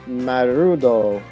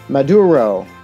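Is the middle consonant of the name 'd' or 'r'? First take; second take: r; d. First: The second syllable starts with an r sound. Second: The second syllable starts with a d sound. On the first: The speaker calls it wrong. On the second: The speaker calls it right.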